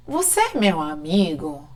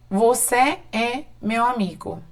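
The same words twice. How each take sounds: First: "Você é meu amigo?" asked softly, with questioning tune; question intonation. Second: "você é meu amigo" as a plain, quiet statement; statement intonation. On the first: Teacher showing students that tune alone makes a question, questioning intonation. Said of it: "Agora eu pergunto". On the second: Teacher showing students how a Portuguese statement sounds, affirming intonation. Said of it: "Sabemos que tá afirmando, não tá perguntando". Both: Shown as a demonstration.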